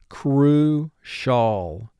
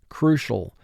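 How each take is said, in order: First: The word is split into two distinct syllables. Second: The word is said smoothly as one unit. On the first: This pronunciation helps with spelling. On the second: This is the everyday pronunciation.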